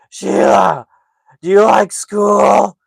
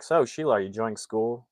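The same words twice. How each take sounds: First: Loud, high, drawn-out mockery; mocking imitation. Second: Said in the usual way. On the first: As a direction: make fun of him like a taunting little brother. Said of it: "makes total fun of him". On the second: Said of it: "finally gets, gets the attention".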